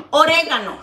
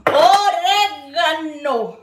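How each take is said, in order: First: Said in the usual way. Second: Orégano stretched very slowly; drawn-out word. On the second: Shown as a demonstration. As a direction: draw out orégano syllable by syllable. Says oregano twice, stretched.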